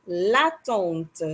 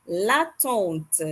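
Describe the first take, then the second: Both takes have the same delivery.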